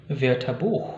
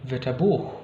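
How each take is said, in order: The two takes are said the same way.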